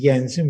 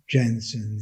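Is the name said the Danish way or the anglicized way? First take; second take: Danish; anglicized. First: The name is said in the Danish way. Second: The name is said in an anglicized way. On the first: The speaker calls it right. "the correct spelling and pronunciation is Jensen because he was a, a Danish mathematician" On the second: The speaker calls it wrong. "Often we we say Jensen"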